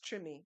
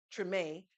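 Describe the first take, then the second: First: Treme said TRIH-mee, drawn out; Louisiana pronunciation. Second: Treme said trih-MAY; standard pronunciation. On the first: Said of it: "with the accent of Louisiana, it's pronounced". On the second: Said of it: "you all may remember that H B O series". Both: Shown as a demonstration.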